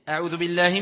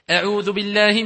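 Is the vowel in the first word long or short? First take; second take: short; long. First: The vowel in the first word is cut short. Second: The vowel in the first word is drawn out. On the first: The speaker calls it wrong. "C'est une erreur" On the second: The speaker calls it right. "On doit voir ici cette prolongation"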